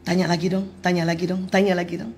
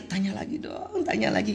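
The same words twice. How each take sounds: First: Said in the usual way. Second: Quiet inner plea. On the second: Retold or imitated. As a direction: hush it like a secret hope. Wife's inner wish to husband.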